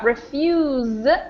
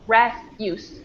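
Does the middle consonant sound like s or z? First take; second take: z; s. First: The middle consonant sounds like a z. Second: The middle consonant sounds like an s. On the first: It is used as a verb. "we kind of pronounce that S like a Z" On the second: It is used as a noun. "because of the stress change, it becomes refuse"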